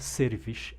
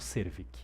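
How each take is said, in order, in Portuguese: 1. O nome termina com som de sh. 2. O nome termina com som de k. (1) "Eu acho que se fala Servish" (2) "e não Servic"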